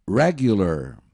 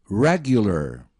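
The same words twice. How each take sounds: No difference in how they are said.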